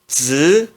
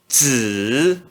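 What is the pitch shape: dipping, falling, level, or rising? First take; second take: rising; dipping. First: The pitch rises from middle to high. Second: The pitch dips low then rises. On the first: "No segundo tom se pronuncia z" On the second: "No terceiro tom"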